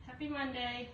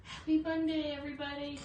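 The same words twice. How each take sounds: First: Said in the usual way. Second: Happy Monday called out louder and brighter; upbeat hello to the viewers; bright greeting. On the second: Real, not acted. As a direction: greet everyone with a lift on Happy. Cheerful live greeting to viewers.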